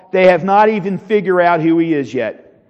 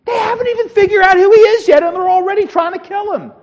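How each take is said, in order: First: Said in the usual way. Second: Very high, loud, rushed disbelief; incredulous outcry. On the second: Real, not acted. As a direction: cry it out high in sheer disbelief. Preacher repeats it in outraged disbelief.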